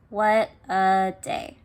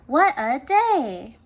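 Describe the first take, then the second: First: It is said in a flat, unexcited voice. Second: It is said in an excited, lively voice. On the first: The speaker calls it wrong. "instead of reading it like this" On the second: The speaker calls it right. "I knew to make my voice sound more excited"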